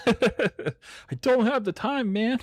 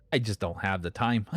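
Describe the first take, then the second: First: High, slow, laughing through it. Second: Said in the usual way. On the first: Real, not acted. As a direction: laugh the words out, drawn out. Laughs while repeating line.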